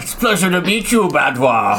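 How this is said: It is said in a changed character voice.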